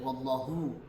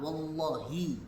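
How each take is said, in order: First: The word ends with an 'oo' vowel. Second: The word ends with an 'ee' vowel. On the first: It is not an oath. The speaker calls it wrong. "nggak boleh wallahu" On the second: It is an oath. The speaker calls it right. "Harus kasroh, wallahi yang benar ya"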